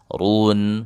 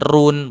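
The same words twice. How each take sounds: First: The r sound is thick and heavy. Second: The r sound is thin and light. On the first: The speaker calls it right. "Ru itu ditebalkan" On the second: The speaker calls it wrong. "Bukan run. Kalau run itu tipis"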